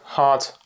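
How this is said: It is said with an American A vowel. "Americans tend to say something like"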